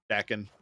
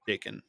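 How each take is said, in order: First: Dakin with a short A, like "dack-in"; alternative pronunciation. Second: Dakin with a long A, like "day-kin"; alternative pronunciation. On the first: Player second-guessing a card's name, short-A pronunciation. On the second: Player trying out a card's name, long-A pronunciation. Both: Shown as a demonstration. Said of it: "However his name is pronounced".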